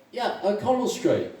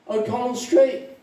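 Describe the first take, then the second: First: Lightly acted, higher-pitched agreement; eager confirmation. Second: High-pitched, surprised query; surprised question. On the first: Irishman confirming to a fellow drinker, eagerly. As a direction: confirm it eagerly, falling at the end. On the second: Acted. Irishman asking a fellow drinker where he's from, surprised. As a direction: pipe up, checking the street. First Irishman in joke asks.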